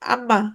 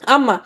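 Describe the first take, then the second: First: It is said with the nose pinched shut. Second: It is said with the nose open.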